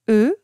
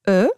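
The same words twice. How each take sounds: First: The vowel is pronounced with a closed mouth. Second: The vowel is pronounced with an open mouth. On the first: "Le E fermé" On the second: "Le E ouvert"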